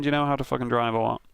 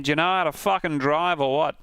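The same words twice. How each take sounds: First: Said in the usual way. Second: Mock Aussie with swooping pitch; imitated Australian accent. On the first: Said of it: "I think he's saying". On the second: Second guess at the voice clip, in an Australian accent. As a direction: imitate an annoyed Australian driver. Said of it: "It was an Australian guy".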